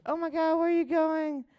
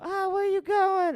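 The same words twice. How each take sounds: First: Much higher strange put-on voice; driver's voice imitation. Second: Much higher odd put-on voice; deep-voiced driver imitation. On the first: Retelling the driver greeting him, high odd put-on voice. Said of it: "It sounded just like that". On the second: Hitchhiker imitating the driver, high odd put-on voice. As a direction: mimic the driver's strange voice. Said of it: "it sounded just like that".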